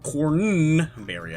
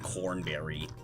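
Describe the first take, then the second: First: The n sound in the middle is drawn out. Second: The n sound in the middle is short. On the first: The speaker calls it right. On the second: The speaker calls it wrong.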